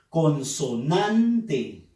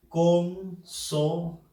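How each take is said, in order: First: "Consonante" slowly, with a stretched "nan"; stress on NAN. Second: "Consonante" in separate pieces, "Con, so, nan, te"; syllable by syllable. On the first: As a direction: lean on the third syllable, "con-so-NAN-te". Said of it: "en la sílaba nan". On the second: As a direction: sound out "Consonante" very slowly, pausing after each syllable. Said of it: "debemos silabear". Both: Shown as a demonstration.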